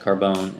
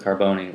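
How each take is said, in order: First: The name is pronounced in an anglicized way. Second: The name is pronounced in an Italian way. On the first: "the anglicized Carbone" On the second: "which is his uh, Italian, you know, namesake"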